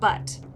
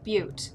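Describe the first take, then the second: First: The vowel is a short 'uh' sound. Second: The vowel is a long 'yoo' sound. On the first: The speaker calls it wrong. "not Butt" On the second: The speaker calls it right. "you pronounce it Butte"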